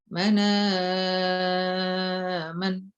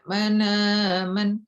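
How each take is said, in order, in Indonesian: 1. Vokal setelah hamzah dibaca sedang. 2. Vokal setelah hamzah dibaca pendek. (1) "empat, tawassut"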